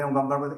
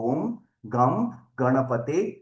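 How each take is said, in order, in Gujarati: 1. તે ઝડપથી અને વારંવાર બોલાય છે. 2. તે ધીમેથી અને ખૂબ શાંતિથી બોલાય છે. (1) "એ રીતે નહીં સાહેબ" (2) "ધીરે ધીરે એકદમ શાંતિથી"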